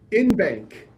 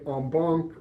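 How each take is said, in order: First: It is said like the English words 'in bank'. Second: It is said with a foreign-sounding pronunciation. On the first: The speaker calls it right. "as a good American ought to" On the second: The speaker calls it wrong. "whatever other ridiculous pronunciation the legal bar wants"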